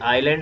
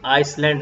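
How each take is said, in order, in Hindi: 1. l से पहले s की कोई ध्वनि सुनाई नहीं देती। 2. s की ध्वनि l से पहले बोली जाती है। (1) "ये आइलैंड होगा" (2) "आइसलैंड नहीं होगा"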